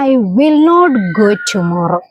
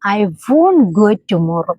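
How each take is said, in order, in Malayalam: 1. നെഗറ്റീവ് രണ്ട് വാക്കായി പൂർണ്ണമായി പറയുന്നു. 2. നെഗറ്റീവ് ഒരു ചെറിയ വാക്കായി ചുരുക്കിപ്പറയുന്നു.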